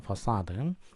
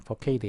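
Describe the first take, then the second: First: The c is sounded like an s. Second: The c is sounded like a k. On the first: The speaker calls it right. "원래 이제 프랑스어 쪽에서 나온 말이기 때문에" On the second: The speaker calls it wrong. "facade 이런 거가 아니고"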